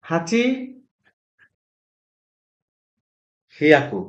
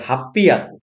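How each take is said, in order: First: The number has an h sound before yaku. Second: The number has a doubled p before yaku. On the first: The speaker calls it wrong. "হওয়ার কথা ছিল হাচি হিয়াকু" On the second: The speaker calls it right. "হাচি হিয়াকু না হয়ে এটা হয় হাপ্পিয়াকু"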